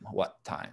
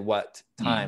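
First: The two t sounds are merged into one. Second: The two t sounds are said separately. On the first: The speaker calls it right. "We say what time?" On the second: The speaker calls it wrong. "We don't say what time"

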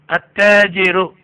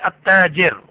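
First: The word ends with a final vowel. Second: The word ends without a final vowel. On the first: The speaker calls it right. "you have to practice the end too" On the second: The speaker calls it wrong. "You should not say At-tajir as the Arabs say"

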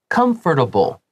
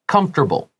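First: The middle syllable is fully pronounced. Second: The middle syllable is dropped, said quickly. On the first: "把它发得标准一点点" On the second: "But when we say it quickly"

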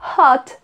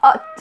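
First: The h at the start is pronounced. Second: The h at the start is silent. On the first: "ao invés de eles falarem hot" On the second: "Muitas vezes o sotaque francês vai tirar o som do H"

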